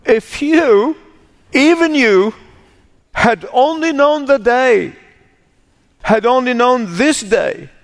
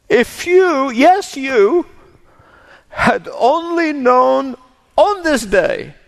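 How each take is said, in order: First: High, grieving cry of lament; sobbing lament. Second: High, slow, grieving plea; grieving lament. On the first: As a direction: voice it as Jesus weeping over the city. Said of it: "He sobbed over it and said". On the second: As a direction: weep the words over the city. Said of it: "Please listen to those words again as if you've never heard them before". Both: Acted.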